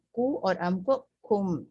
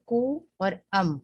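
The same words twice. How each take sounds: First: کو and ام run together into کم, slower and even; joined into one word. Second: کو اور ام said apart as separate pieces; separate syllables. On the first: Teacher joining the syllables into one word for students. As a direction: blend کو اور ام into a single کم. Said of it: "اب اس کو ذرا جلدی سے پڑھنا ہے". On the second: Teacher showing the separate parts before joining them. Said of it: "ہم الگ الگ کے پڑھتے رہے". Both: Shown as a demonstration.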